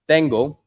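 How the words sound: The T is soft, close to a th sound. The speaker calls it right. "is like a soft T"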